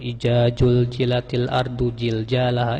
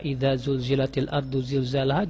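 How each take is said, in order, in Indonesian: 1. Huruf kuncinya dibaca j. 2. Huruf kuncinya dibaca z.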